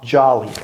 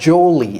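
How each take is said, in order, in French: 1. La première voyelle sonne comme 'ah'. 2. La première voyelle sonne comme 'oh'. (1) "c'est ja. Ja, jolly" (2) "C'est pas jolly"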